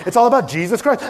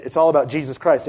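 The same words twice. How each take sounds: First: Said higher, building to a rising "Christ"; playful replay of the big moment as the orchestra hits; dramatic proclamation. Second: Said in the usual way. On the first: Shown as a demonstration. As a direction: announce it like a grand reveal. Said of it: "I was like". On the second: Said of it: "I was like, It's all about Jesus Christ".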